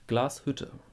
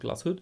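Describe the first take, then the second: First: The word is said slowly and relaxed. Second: The word is said quickly and clipped. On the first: The speaker calls it right. "the German is more relaxed" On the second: The speaker calls it wrong. "this is too short"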